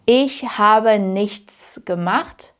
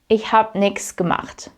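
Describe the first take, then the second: First: Habe and nichts are said in full. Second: Habe and nichts are shortened to hab, nix.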